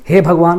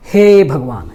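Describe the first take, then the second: First: Said in the usual way. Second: हे held long before भगवान; drawn-out hey. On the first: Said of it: "हम लोग direct हे भगवान नहीं बोलते हैं". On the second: Shown as a demonstration. Teacher shows a pluta vowel to students, हे stretched long. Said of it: "थोड़ा सा खींचना पड़ता है".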